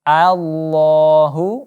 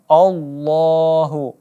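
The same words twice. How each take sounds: First: The opening vowel is a clear open a. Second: The opening vowel is not clearly opened. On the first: The speaker calls it right. "kita buka mulutnya untuk menjelaskan baris fathah" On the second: The speaker calls it wrong. "bukan Allahu"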